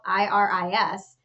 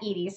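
First: The first vowel sounds like 'eye'. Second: The first vowel sounds like 'ee'. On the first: "her name is spelled Iris"

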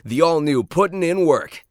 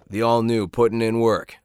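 First: It is the most energetic and lively reading. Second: It has a little more energy and lift.

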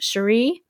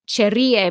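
First: The name is pronounced with English sounds. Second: The name is pronounced with Spanish sounds. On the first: The speaker calls it right. "apparently she pronounces it Shuri" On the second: The speaker calls it wrong. "I was pronouncing it like what it would be in Spanish"

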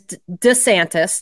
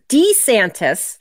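First: The first syllable is weak and unemphasized. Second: The first syllable has a long E vowel. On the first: "not putting the emphasis on it" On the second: "like with the long E"

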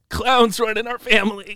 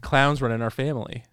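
First: It is said in a put-on Logan-impression voice. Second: It is said in the speaker's normal voice.

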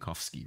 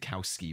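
First: The name ending is said the original Polish way. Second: The name ending is said the Americanized way. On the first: This is the original form of the name. "rather than Kowski" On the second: This is the changed family form of the name. "his ancestors decided to change it to Kowski"

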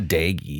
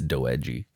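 First: It is said as two syllables, like daggy. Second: It is said as three syllables, like do-edgy. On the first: The speaker calls it wrong. "It's not daggy" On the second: The speaker calls it right. "it's do-edgy"

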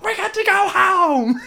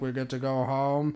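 First: It is said loudly. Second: It is mumbled quietly.

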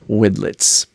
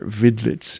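First: The name is pronounced the English way. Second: The name is pronounced the German way.

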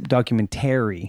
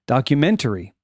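First: The stress falls on the 'tary' syllable. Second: The stress falls on the 'ment' syllable.

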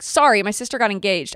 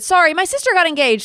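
First: It is said in a glum, apologetic tone. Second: It is said in an excited, happy tone.

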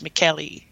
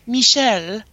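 First: The name is said with an Italian pronunciation. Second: The name is said with a French pronunciation. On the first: It is the name's intended Italian form. The speaker calls it right. "in Italian pronunciation, it's Michele" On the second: It would be a man's name in French. The speaker calls it wrong. "like in French, you know, it's like Michel"

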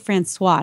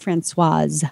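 First: The name ends without an S sound. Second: The name ends with an S sound. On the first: The speaker calls it right. "I'm going to say Francois, ... no E on the end means it's a silent S" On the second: The speaker calls it wrong. "not Francoise"

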